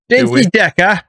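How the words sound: It is said in a put-on foreign accent.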